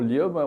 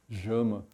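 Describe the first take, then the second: First: The name begins with a Portuguese 'lh' sound. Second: The name begins with a 'zh' or 'sh' sound. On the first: This is how it is read in Brazil. "eu falo Llama, o pessoal vai escrever com L H" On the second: This is how Argentinians say it. "os argentinos dizem Jama"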